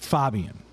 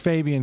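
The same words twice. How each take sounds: First: The name has its original, non-American pronunciation. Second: The name has an Americanized pronunciation. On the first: This is how the man says his own name. The speaker calls it right. "It's Fabian" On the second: This is how most other people say the name. The speaker calls it wrong. "that's kind of like the Americanized, bastardized version of his name"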